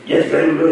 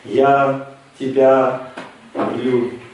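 First: The phrase is rattled off quickly. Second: The phrase is said slowly and calmly. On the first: The words are not heartfelt. The speaker calls it wrong. "да что ты это тараторишь" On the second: The words come from the heart. The speaker calls it right. "скажи нормально"

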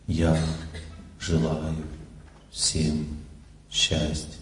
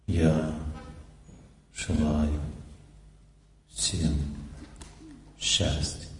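First: It is said in an ordinary, unreflective tone. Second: It is said in a reflective, remembering tone. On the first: The speaker calls it wrong. "Это правильный звук или нет? Нет" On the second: The speaker calls it right. "Чувствуете другой звук? Это звук памяти"

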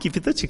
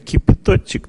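First: The word sounds friendly and accommodating. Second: The word sounds dismissive and contemptuous. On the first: The guest is respected. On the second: The guest is looked down on.

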